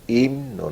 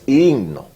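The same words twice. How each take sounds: First: The M sound in the middle is pronounced. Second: The M sound in the middle is dropped. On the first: The speaker calls it right. "porque tiene una M" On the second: The speaker calls it wrong. "No es himno"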